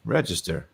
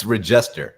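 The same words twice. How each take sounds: First: Register stressed on REG, said low and soft; stress on first syllable. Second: Regester slowly, with weight on the middle syllable; stress on second syllable. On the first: Cohost echoes the mistaken surname, Register stressed on its first syllable. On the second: Cohost repeats the name correction, Regester stressed on its middle syllable. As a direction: hit JEST in Regester, not the first syllable. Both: Shown as a demonstration. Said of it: "emphasis on the wrong syllable".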